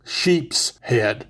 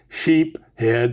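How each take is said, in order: First: It is said with an s after sheep. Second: It is said without an s after sheep. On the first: This is how most people and the fish book say it. "Now everybody calls them sheep's head" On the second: This is how the speaker was raised to say it. "that's the way I was raised to pronounce it"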